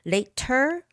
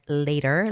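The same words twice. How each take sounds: First: The T is pronounced crisply and clearly. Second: The T is softened into a quick tap.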